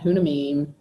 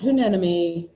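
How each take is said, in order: First: It is said as 'HUN-a-mim'. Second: It is said as 'hue-NEN-emy'. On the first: "not Hunamim" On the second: "Not Hunenemy"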